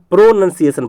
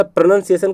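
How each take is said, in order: First: "प्रोनंसिएशन" read as pro-nun-ciation; spelling pronunciation. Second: Said in the usual way. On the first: Shown as a demonstration. Teacher reading it as spelt for students, spelling pronunciation. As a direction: give "प्रोनंसिएशन" a full, long "pro" at the front. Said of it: "प्रोनंसिएशन पढ़ते हैं एक बार". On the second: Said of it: "ना पढ़ करके".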